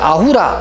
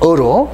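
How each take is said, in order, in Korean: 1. 'ah-oo' 이중모음으로 시작하며, 세 음절입니다. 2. 평범한 'uh' 모음으로 시작하며, 두 음절입니다. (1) "우리가 그냥 아우라 이렇게 발음을 하는 것은 독일식" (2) "원래 정확한 발음은 어로"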